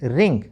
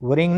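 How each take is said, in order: First: The word begins directly with an R sound. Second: The word begins with a sounded W. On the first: The speaker calls it right. "डब्लू आर में डब्लू silent" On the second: The speaker calls it wrong. "वरिंग नहीं"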